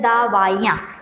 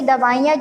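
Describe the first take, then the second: First: The first vowel is long. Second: The first vowel is short. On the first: The speaker calls it wrong. "दा में आ की मात्रा लगी हुई है" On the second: The speaker calls it right. "छोटी की मात्रा में उसको उच्चारित करते हैं"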